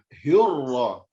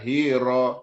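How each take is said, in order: First: The r is doubled and held. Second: The r is short and single. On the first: The speaker calls it right. "Harus ada bunyi sabdu tu untuk menebalkan huruf ra" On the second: The speaker calls it wrong. "jangan hira"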